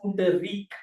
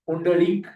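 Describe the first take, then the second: First: The consonant before the last syllable is an R. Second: The consonant before the last syllable is an L. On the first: This is the name as used in Karnataka. "now if you go to Karnataka, they call him Pundarik" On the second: This is the name as used in Maharashtra. "in Maharashtra they call him Pundalik"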